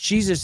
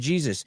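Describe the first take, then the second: First: It is said with a Brazilian Portuguese pronunciation. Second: It is said with a standard English pronunciation. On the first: This is how another person says the name. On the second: This is the usual way to say the name.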